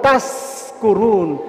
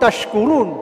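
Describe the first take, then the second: First: The word is said with an s sound. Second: The word is said with a sh sound. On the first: So that you become drunk. "bukan tash tapi tas, tas kurun, sin" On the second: So that you give thanks. "Tashkurun syukur"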